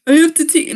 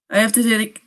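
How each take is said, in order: First: Put-on higher, louder girlfriend voice; higher girly voice. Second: Said in the usual way. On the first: Shown as a demonstration. Voicing the girlfriend in a higher, louder voice. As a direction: put on her voice, pitched up. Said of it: "no, that's bad too". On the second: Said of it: "t-, no, wait".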